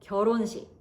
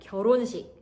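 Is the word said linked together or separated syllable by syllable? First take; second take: linked; linked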